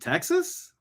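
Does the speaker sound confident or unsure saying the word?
unsure. It sounds hesitant, like an uncertain guess. The answer is only a guess. The speaker calls it wrong.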